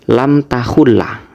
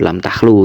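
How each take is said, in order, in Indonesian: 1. Kata kedua terdiri dari tiga suku kata, berakhir dengan -la. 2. Kata kedua terdiri dari dua suku kata, berakhir dengan -lu. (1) "beliau tadi bacanya kalau tidak salah seperti ini" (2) "ini bacanya mestinya"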